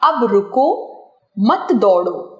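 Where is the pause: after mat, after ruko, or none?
after ruko. There is a pause after the word ruko. It is an order to stop. "रुकने का आदेश"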